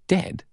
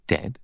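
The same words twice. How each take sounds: First: Dead? leaps up high in disbelief; a high, startled Dead? that can't accept it; incredulous. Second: Said in the usual way. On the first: A narrator's reading. Stunned guests repeat the word.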